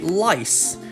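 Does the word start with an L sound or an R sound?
L sound. The word starts with an L sound.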